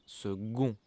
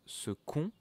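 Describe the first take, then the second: First: The middle consonant is a g sound. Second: The middle consonant is a k sound. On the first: The speaker calls it right. "but we pronounce it second, g" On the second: The speaker calls it wrong. "it's written second"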